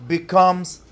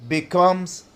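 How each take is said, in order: Both takes have the same delivery.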